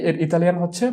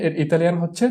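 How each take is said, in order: Both takes have the same delivery.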